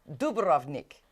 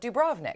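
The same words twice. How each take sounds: First: It is said with a Croatian accent. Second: It is said with an English accent.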